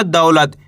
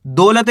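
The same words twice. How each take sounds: First: "दौलत" as dau-lat, au gliding; correct au vowel. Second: First syllable of "दौलत" as a pure "do"; wrong o vowel. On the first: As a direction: say "दौलत" with an au diphthong, not o. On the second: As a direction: say "दौलत" as dolat, with no au glide. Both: Shown as a demonstration. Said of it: "दौलत नहीं पढ़ना".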